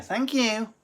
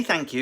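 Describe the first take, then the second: First: High prim mock thank you; imitating Lindsay. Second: Said in the usual way. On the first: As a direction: sing out thank you primly. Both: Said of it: "Lindsay thanks herself".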